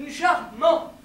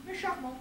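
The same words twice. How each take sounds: First: Loud, firmly stressed CHARMANT; emphatic repeat. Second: Softened concession. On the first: Insisting the accent is charming, loud repeat. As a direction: hit both syllables of Charmant loudly. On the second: Softening the verdict on the accent, softer aside. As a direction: add it gently after the criticism. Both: Acted.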